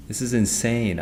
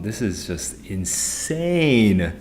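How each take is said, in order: First: Said in the usual way. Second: Slow, stretched-out exasperation; slowly dragging out insane, fed up; drawn-out disbelief. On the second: Real, not acted. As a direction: drag out every word in weary disbelief. Exasperated over technical problems.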